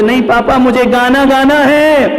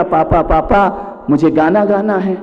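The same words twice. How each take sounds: First: Put-on high, loud childish insisting; insistent child yell. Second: Said in the usual way. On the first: Small boy yelling at father that he must sing. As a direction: dig in and demand it louder.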